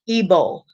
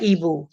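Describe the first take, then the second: First: The name ends with an 'oh' vowel. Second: The name ends with an 'oo' vowel. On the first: The speaker calls it right. "Ebo, not Ebu, Ebo" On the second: The speaker calls it wrong. "not Ebu"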